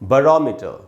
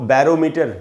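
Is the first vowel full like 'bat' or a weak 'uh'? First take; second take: weak; full. First: The first vowel is a weak 'uh'. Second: The first vowel is a full 'a' as in 'bat'. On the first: The speaker calls it right. "इसको हम पढ़ेंगे बरोमीटर" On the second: The speaker calls it wrong. "इसको बैरोमीटर नहीं पढ़ना है"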